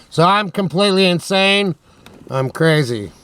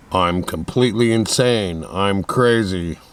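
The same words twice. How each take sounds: First: Said in the usual way. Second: Deep put-on voice. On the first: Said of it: "I could just adopt this voice". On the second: Shown as a demonstration. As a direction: push the voice down low and drag it. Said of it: "if my voice was like this".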